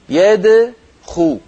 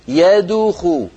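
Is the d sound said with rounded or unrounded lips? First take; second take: unrounded; rounded. First: The d sound is said with unrounded lips. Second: The d sound is said with rounded lips. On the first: The speaker calls it right. "الصواب هكذا" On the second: The speaker calls it wrong. "سأنطق الخطأ، هنا ضممت شفتي عند الدال"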